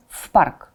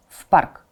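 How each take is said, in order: Both takes have the same delivery.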